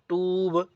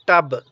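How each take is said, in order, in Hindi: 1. स्वर को खींचकर लंबा बोला गया है। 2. स्वर को झटके से छोटा करके बोला गया है। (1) "मैंने ऐसे नहीं बोला टूब" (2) "बल्कि टब। ... ये बिल्कुल शार्ट है"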